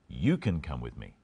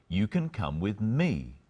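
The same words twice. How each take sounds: First: The stress is on "you". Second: The stress is on "me".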